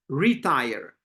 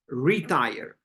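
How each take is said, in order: First: The stress is on the first syllable. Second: The stress is on the first syllable.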